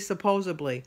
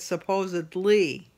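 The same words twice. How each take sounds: First: The word ends with a 'bly' sound. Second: The word ends with a 'dly' sound. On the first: The speaker calls it wrong. "I say supposedly. And it's not supposedly" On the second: The speaker calls it right. "with a D L Y instead of a B L Y"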